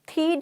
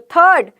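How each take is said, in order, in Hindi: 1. स्वर लंबी 'ee' ध्वनि है। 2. स्वर 'er' ध्वनि है। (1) "थीड नहीं बोल रही" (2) "तो थर्ड"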